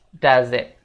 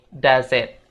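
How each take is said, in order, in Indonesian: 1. Kata-katanya disambung dengan lancar. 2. Kata-katanya disambung dengan lancar.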